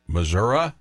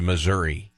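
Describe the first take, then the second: First: Missouri ending in UH, mizz-URR-uh; regional pronunciation. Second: Missouri ending in EE, mizz-URR-ee; standard pronunciation. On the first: Host quizzing co-host, Missouri as mizz-URR-uh. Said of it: "So are you". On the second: Host quizzing co-host, Missouri as mizz-URR-ee. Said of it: "Are you Missouri?". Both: Shown as a demonstration.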